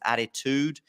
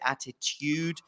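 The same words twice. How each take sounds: First: The word is said in an American accent. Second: The word is said in a non-American accent. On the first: "you may go a bit more towards attitude" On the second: "I would say attitude"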